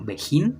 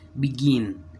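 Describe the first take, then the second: First: The word is read with Spanish letter sounds. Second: The word is read with English sounds. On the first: The speaker calls it wrong. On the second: The speaker calls it right.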